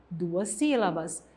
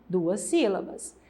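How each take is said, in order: No difference in how they are said.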